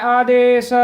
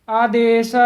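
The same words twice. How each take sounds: Both takes have the same delivery.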